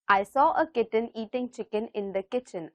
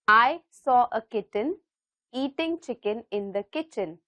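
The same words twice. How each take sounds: First: The sentence is said at a faster pace. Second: The sentence is said at a slower pace. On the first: "Let's see if we can say it a little faster" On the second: "I'll say it one more time"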